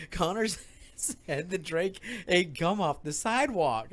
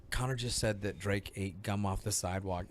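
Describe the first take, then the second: First: Slow, softer, breaking into laughter; laughing retelling. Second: Low, hushed retold admission; mortified quiet confession. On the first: Retold or imitated. Repeating Connor's claim to Will, laughing retelling. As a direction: struggle through it with laughs. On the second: Mortified dad telling Will about the gum, hushed retelling. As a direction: break it softly, mortified.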